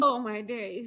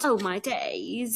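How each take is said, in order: First: Said in the usual way. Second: Slow, mock British exclamation; British accent. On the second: Shown as a demonstration. Co-host redoing her exclamation, slow British accent. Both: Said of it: "In, in the British's accent".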